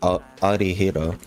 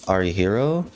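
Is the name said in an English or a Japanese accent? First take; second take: Japanese; English. First: The name is said with a Japanese-style accent. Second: The name is said with plain English sounds.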